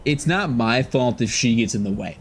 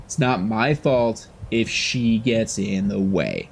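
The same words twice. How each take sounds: First: Said in the usual way. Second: My drawn out slowly, falling; It's not my fault, stressing my. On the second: Shown as a demonstration. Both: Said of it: "repeats line slower".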